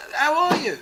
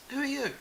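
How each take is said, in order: First: Loud, high, hearty hello; eager greeting. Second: Softer, puzzled brush-off; blank non-recognition. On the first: Rick greeting Peter after years, loud and eager. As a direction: greet him like an old friend. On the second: Peter failing to recognise Rick, quietly blank. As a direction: ask it as to a stranger. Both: Retold or imitated.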